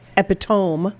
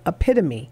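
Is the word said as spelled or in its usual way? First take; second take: as spelled; usual way. First: The word is pronounced letter by letter as spelled. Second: The word is pronounced in its usual way. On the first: The speaker calls it wrong. "looking at it phonetically, I might say epitome" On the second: The speaker calls it right. "So epitome is epitome"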